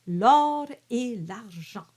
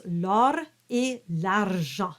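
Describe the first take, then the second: First: L'or et l'argent, rolled R trilled hard; exaggerated R. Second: L'or et l'argent with a light R flip; just flip the R; flipped R. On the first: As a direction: roll the R on purpose. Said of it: "I've exaggerated the R". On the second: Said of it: "it's just a flip". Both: Shown as a demonstration.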